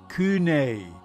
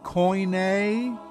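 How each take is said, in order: First: The word is pronounced kune. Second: The word is pronounced koine. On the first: "or kune" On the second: "not koine"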